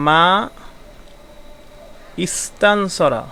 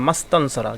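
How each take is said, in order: First: "মা ইস্তানসরা" with a pause and the ই sounded; separate words. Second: "মাস্তানসরা" as one word, hamza and ই elided; joined reading. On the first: Teacher giving the separated reading before correcting it. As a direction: say "মা" then "ইস্তানসরা" apart, vowel kept. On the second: Teacher showing students the correct joined reading. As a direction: glide "মা" straight into "স্তানসরা". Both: Shown as a demonstration. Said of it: "মা ইস্তানসরা হবে না".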